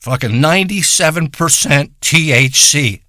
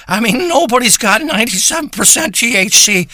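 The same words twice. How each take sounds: First: Said in the usual way. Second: Higher, hyped-up push on nobody's; excited disbelief. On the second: Acted. Stoner gushing to listeners about his ninety-seven percent weed, excited disbelief. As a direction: sell it like it's a miracle.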